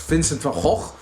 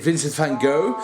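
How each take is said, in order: First: The name is said with Dutch pronunciation. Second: The name is said with English pronunciation.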